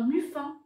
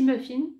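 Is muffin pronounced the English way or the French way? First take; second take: French; English. First: It is pronounced with a French-style sound. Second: It is pronounced with an English-style sound.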